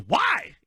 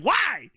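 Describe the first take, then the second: First: A sharp, high, loud "Why?"; high whiny why. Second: A high, loud, stretched "Why?"; high pitched why. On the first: Coach whining "Why?" at the press conference, high and loud. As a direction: mimic the upset coach's pitched-up "Why?". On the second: Retelling the coach asking "Why?", high and loud. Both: Retold or imitated. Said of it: "the way he said".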